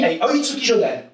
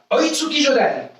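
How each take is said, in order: First: Said in the usual way. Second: Higher, called-out technique name; announcing the attack. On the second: Shown as a demonstration. Karate teacher leading the class, calling out the attack name higher. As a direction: call the attack for the class to echo. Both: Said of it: "Annoncez l'attaque avec moi".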